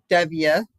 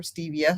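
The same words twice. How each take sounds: First: "stevia" said STEV-ee-uh, short e; short-e pronunciation. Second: "stevia" said STEE-vee-uh, long e; long-e pronunciation. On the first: Offering one way to pronounce the pop's sweetener, short-e "stevia". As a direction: say "stevia" with the first vowel as in "step". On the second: Offering the other way to pronounce the sweetener, long-e "stevia". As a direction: say "stevia" with the first vowel as in "steep". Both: Shown as a demonstration. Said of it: "however you pronounce it properly".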